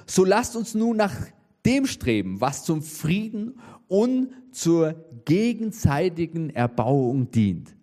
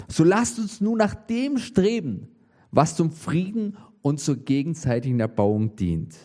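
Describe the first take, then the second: First: First reading drawn out slow, solemn and measured; a slow weighty scripture reading. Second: Said in the usual way. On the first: Shown as a demonstration. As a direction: read the verse slowly, leaning on each phrase. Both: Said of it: "steht Folgendes".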